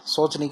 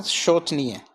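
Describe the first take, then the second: First: शोचनीय starting with a plain 's'; wrong initial sound. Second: शोचनीय starting with a clear 'sh'; correct 'sh' sound. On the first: Teacher quoting the common error, शोचनीय with 's' for 'sh'. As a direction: say शोचनीय as soch-niye. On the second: Teacher answering own question, शोचनीय with 'sh'. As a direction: say शोचनीय as shoch-niye. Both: Shown as a demonstration. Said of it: "की बजाय क्या है".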